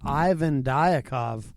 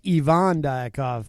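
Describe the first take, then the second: First: The name is said with an American pronunciation. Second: The name is said with its native, non-American pronunciation. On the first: "I'm an American, so I pronounce it uh, the American way" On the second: "or as he says"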